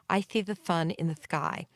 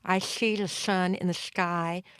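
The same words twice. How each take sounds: First: The s sounds are lisped, tongue forward. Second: The s sounds are slushy, air escaping sideways. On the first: "A frontal lisp" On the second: "a slurpy, slushy type of sound"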